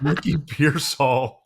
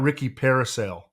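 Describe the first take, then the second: First: The surname sounds like Pearsall. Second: The surname sounds like the word parasail. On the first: The speaker calls it right. "it's Ricky Pearsall" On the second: The speaker calls it wrong. "It's not Ricky Parasail"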